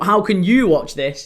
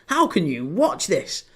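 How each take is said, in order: First: It sounds like a plain, sincere question. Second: It sounds disbelieving and scornful. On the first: The asker wants to know where to view it. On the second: The asker cannot believe anyone would view it.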